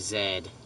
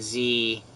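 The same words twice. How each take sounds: First: The letter is said as 'zed'. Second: The letter is said as 'zee'. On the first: "people in Australia and New Zealand ... they say Z" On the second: "instead of saying Z"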